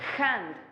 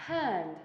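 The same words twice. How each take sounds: First: The h is a harsh, throaty rasp. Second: The h is a soft, open breath. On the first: The speaker calls it wrong. "forzamos la H haciéndola sonar como una J" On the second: The speaker calls it right. "Tiene que salir libre, como si fuera aire"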